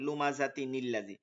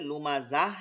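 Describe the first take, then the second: First: The word ends in -tin, joined to the next word. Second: The word ends in an h sound and stops. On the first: The reciter continues without stopping. "ওয়াকফ না করার সময় এরকম উচ্চারণ হবে" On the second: The reciter stops at this word. "ওয়াকফ করলে"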